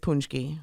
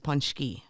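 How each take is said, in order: First: It is pronounced the American way. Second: It is pronounced the Polish way. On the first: "the American version is" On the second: "The Polish version is"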